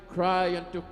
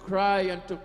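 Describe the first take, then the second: No difference in how they are said.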